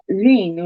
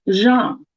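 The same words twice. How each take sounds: First: "Jean" with a long ee sound; American pronunciation. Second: "Jean" with an open, nasalised ah, "zhahn"; French pronunciation. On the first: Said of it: "which is American". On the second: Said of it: "a French person will say". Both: Shown as a demonstration.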